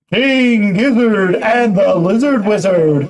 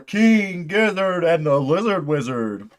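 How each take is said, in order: First: The voice has an added echo effect. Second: The voice is plain with no added effect.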